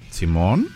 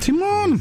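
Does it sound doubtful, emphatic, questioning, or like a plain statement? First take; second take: doubtful; emphatic. First: It is said with a doubtful, checking intonation. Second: It is said with an emphatic, exclaiming intonation. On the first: It asks whether the other person is sure. "¿Estás seguro?" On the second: It strongly affirms something. "Claro que sí. O sea, doble afirmación"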